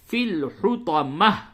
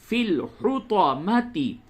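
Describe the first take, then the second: First: The word ends with a soft 'h' sound. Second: The word ends with a full 'ti' syllable. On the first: The reader stops at this word. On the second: The reading continues without stopping.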